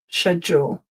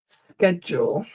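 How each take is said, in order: First: The word begins with an 'sh' sound. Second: The word begins with an 'sk' sound. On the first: "traditionally in British English, this is like sh schedule, as in the sh in shoes" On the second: "In North American English, it is sk schedule"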